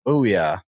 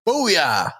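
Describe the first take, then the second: First: It is said flatly, with little energy. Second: It is said loudly, with lots of energy.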